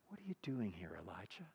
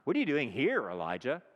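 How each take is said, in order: First: It is said in a gentle, tender tone. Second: It is said in a harsh, accusing tone.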